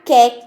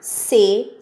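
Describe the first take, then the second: First: The syllable begins with a hard k sound. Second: The syllable begins with a hissing s sound. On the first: The speaker calls it wrong. "eu não falo ca, que, que, có, cu. Eu não falo assim" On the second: The speaker calls it right. "Eu falo ca, se, si, có, cu"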